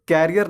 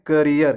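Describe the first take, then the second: First: "कैरियर" like carrier, open first vowel; wrong pronunciation. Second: "करियर" with short kuh at the start; correct pronunciation. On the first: Teacher rejects the common reading, sounding like "carrier". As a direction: say "कैरियर" as CARE-ee-er. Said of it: "कैरियर नहीं पढ़ते हैं". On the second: Teacher models the future-job word, correct "kuh-ree-er". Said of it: "उसे हम पढ़ते हैं". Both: Shown as a demonstration.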